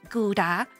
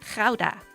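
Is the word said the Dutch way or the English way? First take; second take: English; Dutch. First: The word is said with English pronunciation. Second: The word is said with Dutch pronunciation. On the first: The speaker calls it wrong. "not Gouda" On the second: The speaker calls it right. "We say Gouda"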